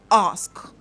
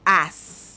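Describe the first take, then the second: First: The word ends with an s then k. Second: The word ends with an s only. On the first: The speaker calls it right. "number four is ask" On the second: The speaker calls it wrong. "Or ass"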